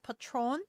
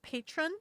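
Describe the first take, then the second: First: The word is said with a Spanish pronunciation. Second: The word is said like an English word. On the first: The speaker calls it right. "It's pronounced patron" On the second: The speaker calls it wrong. "I said patron. I didn't understand what I was reading"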